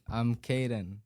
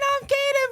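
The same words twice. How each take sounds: First: It is said in a normal speaking voice. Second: It is said in a high puppet-like character voice.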